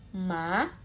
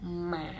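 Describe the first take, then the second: First: The pitch rises like a surprised question. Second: The pitch dips down, then rises slightly. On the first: "Nada dua seperti kita shock, kaget" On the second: "nada tiga itu turun dulu. Turun naik"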